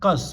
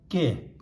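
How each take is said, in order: First: The syllable ends with an s sound. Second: The syllable ends with an open e vowel. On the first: The speaker calls it wrong. "it should be kas, but we don't say kas" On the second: The speaker calls it right. "we say ka, sa, ke"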